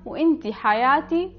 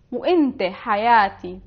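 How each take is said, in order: First: وانت said "inti" with a final i, for a woman; feminine form. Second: وانت said "inte" with a final e, for a man; masculine form. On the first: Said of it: "to a woman". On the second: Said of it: "to a man". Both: Shown as a demonstration.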